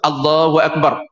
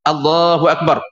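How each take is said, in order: The two takes are said the same way.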